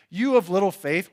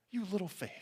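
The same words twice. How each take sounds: First: Louder, higher rebuke; mock scolding, raised voice; slam. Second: Very soft, tender chiding; hushed, kindly reproach; not a slam. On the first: Shown as a demonstration. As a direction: demonstrate a harsh put-down. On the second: Retold or imitated. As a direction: gently chide with affection. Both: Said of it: "was not like a, a slam".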